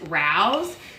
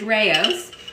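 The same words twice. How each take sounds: First: The name is given an Asian-sounding pronunciation. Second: The name is given an Italian-sounding pronunciation. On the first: The speaker calls it wrong. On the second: The speaker calls it right. "But it is Rao's"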